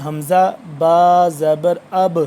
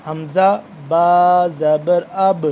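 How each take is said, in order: First: اب ended with a jolted, bouncing ب; qalqala demo. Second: حمزہ با زبر اب read slowly, the ب in اب bounced with qalqala; correct reading. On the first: Teacher demonstrating qalqala to students, a jolt on the ب. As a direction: say حمزہ با زبر اب slowly, shaking the final ب in اب. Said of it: "اس کو دیکھیں جھٹکا لگ رہا ہے نا". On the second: Teacher showing the right way, slow and firm. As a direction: spell حمزہ با زبر اب slowly and clip اب with a shaken ب. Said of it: "ہم حمزہ اس طرح پڑھ رہے ہیں". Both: Shown as a demonstration.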